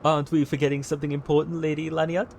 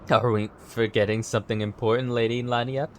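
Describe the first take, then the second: First: It is said in a Stewie Griffin voice. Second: It is said in his normal voice.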